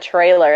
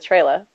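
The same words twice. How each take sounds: First: The word ends with a clear R sound. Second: The word ends with an 'ah' sound, no R. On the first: "isn't a trailer" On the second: "the R's are like A's ... at the end of the word"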